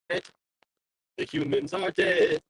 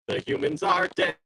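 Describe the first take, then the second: First: Very slow, drawn-out robot singing. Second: Said in the usual way. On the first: Pretend. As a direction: sing it like a cold machine. Slowed robotic sung take.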